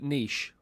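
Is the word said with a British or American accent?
British. The word is said in a British accent.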